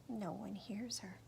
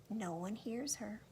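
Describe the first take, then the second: Both takes have the same delivery.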